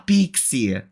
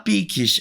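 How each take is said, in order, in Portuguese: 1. A palavra termina com som de ee. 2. A palavra termina com som de s. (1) "ela fala pixie" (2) "ela não fala piques"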